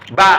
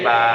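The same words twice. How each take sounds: First: The vowel is short. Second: The vowel is held long.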